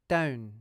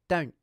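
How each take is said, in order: First: The n sound fades away gradually. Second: The n sound stops abruptly. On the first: The speaker calls it wrong. "when I do it wrongly, the n consonant fades away at the end" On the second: The speaker calls it right. "When I do it correctly, the n consonant stops abruptly"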